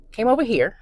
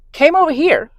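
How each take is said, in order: First: Said in the usual way. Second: High, bright retake of the line; high redo take. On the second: Shown as a demonstration. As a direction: restart it up high.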